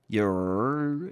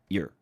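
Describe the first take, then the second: First: The word is drawn out into two syllables. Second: The word is said quickly as one short syllable. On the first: The speaker calls it wrong. "you end up making an extra syllable" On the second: The speaker calls it right. "what I would want to see more is you to say your"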